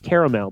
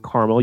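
First: The middle vowel is said, giving three syllables. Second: The middle vowel is dropped, giving two syllables. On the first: The speaker calls it right. "It's caramel because there's an A" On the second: The speaker calls it wrong. "there's not caramel. You're getting rid of a whole"

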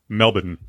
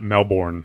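First: It is said the local Australian way. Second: It is said the way it is spelled. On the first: The speaker calls it right. "the name of the city is pronounced Melbourne" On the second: The speaker calls it wrong. "Not Melbourne"

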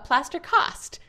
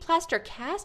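First: It is said in a British accent. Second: It is said in an American accent. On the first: "I realized she was doing a British accent" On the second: "Do you mean plaster cast?"

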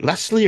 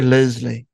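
First: The S in the name sounds hard. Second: The S in the name sounds soft.

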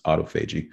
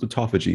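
First: The word is pronounced a non-British way. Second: The word is pronounced the British way. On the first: The speaker calls it right. "It's autophagy" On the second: The speaker calls it wrong. "only in Great Britain do they pronounce it incorrectly like that"

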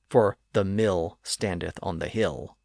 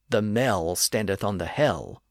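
First: Mill and hill have a short i vowel. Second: Mill and hill have a short e vowel. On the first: The speaker uses the standard pronunciation. The speaker calls it right. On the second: The speaker has a regional accent. The speaker calls it wrong. "some people speak thus"

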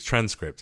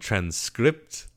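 First: The word is said in a plain, ordinary way. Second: The word is said with a British-sounding inflection. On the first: The speaker calls it right. "It's transcript" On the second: The speaker calls it wrong. "That's the British inflection"

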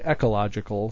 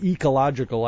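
First: The first syllable sounds like 'eck'. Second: The first syllable sounds like 'eek'. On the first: "I say ecological" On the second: "I don't say ecological"

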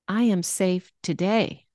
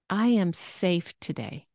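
First: The stress is on the word today. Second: The stress is on the word safe.

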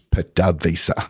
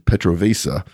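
First: The name begins with the syllables 'Peta'. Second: The name begins with the syllables 'Petro'. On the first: The speaker calls it right. "the right way, which is Petavesa" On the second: The speaker calls it wrong. "I wonder why you pronounce the Venezuelan country Petrovesa instead of the right way"

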